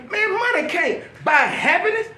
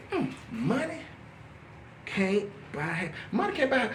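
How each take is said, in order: First: High, emphatic disbelief; incredulous rebuke. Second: Soft, halting, thinking aloud; pondering. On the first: Telling a begging addict off, incredulous high rebuke. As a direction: set him straight, high and indignant. Acted rebuke, then pondered reply. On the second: Addict mulling over the saying, soft and halting. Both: Retold or imitated.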